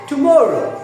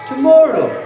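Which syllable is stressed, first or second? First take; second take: second; second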